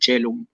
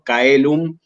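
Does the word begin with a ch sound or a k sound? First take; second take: ch sound; k sound. First: The word begins with a soft ch sound. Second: The word begins with a hard k sound. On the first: This is the ecclesiastical Latin pronunciation. "el latín eclesiástico eh, hace como una especie de unión entre la A y la E" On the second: This is the classical Latin pronunciation. "que sería en latín clásico"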